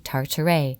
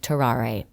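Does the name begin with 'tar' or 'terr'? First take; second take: tar; terr. First: The name begins with 'tar' and rhymes with tartar. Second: The name begins with 'terr' and rhymes with Ferrari. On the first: The speaker calls it wrong. "I say Tartare" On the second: The speaker calls it right. "It's actually Terrare"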